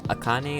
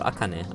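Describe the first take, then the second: First: The name is said with Japanese pronunciation. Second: The name is said with English pronunciation. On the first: "Should I use the actual Japanese reading" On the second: "or should I just speak like English?"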